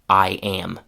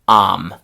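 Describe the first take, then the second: First: Two full syllables with a gliding vowel. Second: One syllable with a short flat vowel. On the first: "the classic pronunciation" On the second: "the chewing gum pronunciation"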